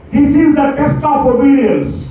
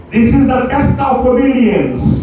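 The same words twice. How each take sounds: The two takes are said the same way.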